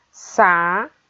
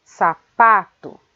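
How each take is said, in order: First: "Sa-pa-to" in three separate beats; long pauses between the syllables of "Sa-pa-to". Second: "sapato" as one word, slow, leaning on PA; stress on PA. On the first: Teacher dividing the word for pupils, syllable by syllable. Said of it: "a gente separa essa palavra". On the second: Teacher showing the stronger syllable, stress on PA. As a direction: hold the middle syllable of "sapato". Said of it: "A sílaba pronunciada com mais força". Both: Shown as a demonstration.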